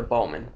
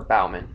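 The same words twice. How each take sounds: First: "Bowman" with a long O, like "bow" in bow tie; first pronunciation attempt. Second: "Bauman" with first syllable rhyming with cow; alternative pronunciation. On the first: Sportscaster guessing a quarterback's name, "Bowman" said BOH-mun. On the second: Sportscaster unsure of a quarterback's name, "Bauman" said BOW-mun. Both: Real, not acted. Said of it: "I don't know how you pronounce it".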